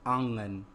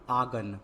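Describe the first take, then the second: First: आंगन with a nasal aa before the g; आंगन said as "aangan"; nasalized vowel. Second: आंगन with an oral aa straight into g; आंगन said as "aagan"; missing nasal. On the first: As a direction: put the chandrabindu nasal into आंगन. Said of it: "क्या होता है". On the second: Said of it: "आंगन नहीं होता है". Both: Shown as a demonstration.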